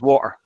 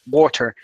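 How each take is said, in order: First: Some sounds in the word are dropped. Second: Every sound in the word is fully pronounced.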